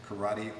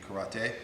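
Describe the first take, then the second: First: The word has an American English pronunciation. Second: The word has a Japanese-style pronunciation. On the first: This is the common American usage. The speaker calls it wrong. "In the United States, we say karate" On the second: This is the original, proper form. The speaker calls it right. "the proper uh, pronunciation would be karate"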